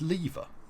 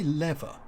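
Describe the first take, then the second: First: It is said with a British pronunciation. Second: It is said with an American pronunciation. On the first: The speaker calls it right. "of course, it's lever" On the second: The speaker calls it wrong. "why do you say lever"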